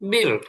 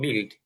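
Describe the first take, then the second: First: "বিল্ড" with a dark, heavy English l; thick English L. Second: "বিল্ড" with a thin, light Bengali l; local-style BUILD. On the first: Teacher shows how English speakers say it, "বিল্ড" with thick l. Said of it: "এলটা একটু মোটা করে". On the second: Teacher shows how we would read it, "বিল্ড" with thin l. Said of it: "আমরা যদি পড়তাম". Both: Shown as a demonstration.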